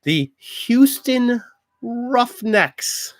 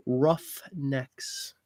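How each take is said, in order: First: Slow, drawn-out high sports announcer call. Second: Said in the usual way. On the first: Pretend. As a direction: boom out the team name like a stadium announcer. Announcing team names.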